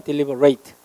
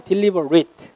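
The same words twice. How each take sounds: First: "deliberate" with a full "-rate" ending; verb pronunciation. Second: "deliberate" with a short "-rit" ending; adjective pronunciation. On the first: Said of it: "동사면 deliberate". ("deliberate" 끝을 '레이트'로 발음) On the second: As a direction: say "deliberate" as an adjective, last syllable reduced to "rit". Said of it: "형용사면 deliberate". ("deliberate" 끝을 짧게 '릿'으로 발음) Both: Shown as a demonstration.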